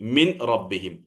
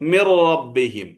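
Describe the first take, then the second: First: The n is kept before the r. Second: The n merges fully into the following r. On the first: "മിൻ റബ്ബിഹിം എന്നാണ് പറയേണ്ടിയിരുന്നത്" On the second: "മിർ റബ്ബിഹിം എന്നാണ് പറഞ്ഞത്"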